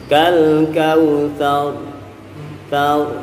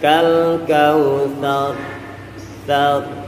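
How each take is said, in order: First: The final R is heavy with rounded lips. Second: The final R is heavy without lip rounding. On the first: "menggunakan metode bantuan mulut" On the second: "hanya menggunakan makhraj ro-nya saja"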